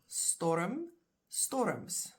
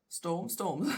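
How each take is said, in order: First: Storm, storms with an extra schwa before the m; Afrikaans pronunciation. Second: Said in the usual way. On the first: Shown as a demonstration. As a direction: say Storm as two syllables, "STOR-uhm", storms as "STOR-uhms". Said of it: "in Afrikaans". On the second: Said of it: "exactly the English".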